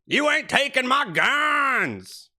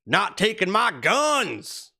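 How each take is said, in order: First: Much higher, slow hollered redneck voice; redneck shout. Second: Slow, higher, lightly drawled redneck voice; a hint of the tobacco-chewing Trump supporter; redneck impression. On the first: Retold or imitated. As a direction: yell it like the tobacco-chewing truck guy. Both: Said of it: "who talks like this with chewing tobacco in his mouth".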